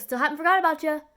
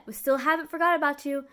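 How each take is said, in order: First: Quick, louder offhand line, voice pitched up higher; brushing-off doctor. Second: A touch louder, lightly mimicked offhand line; doctor repeated. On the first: Retold or imitated. Doctor brushing off the waiting patient, quick and loud. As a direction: toss it off fast while walking past. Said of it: "He goes". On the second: Doctor's line retold mockingly to the viewers, mild emphasis. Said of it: "that's all he said".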